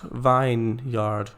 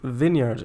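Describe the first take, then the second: First: The first syllable sounds like 'vine'. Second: The first syllable sounds like 'vin'. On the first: The speaker calls it wrong. "not vineyard" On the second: The speaker calls it right. "it's also vineyard"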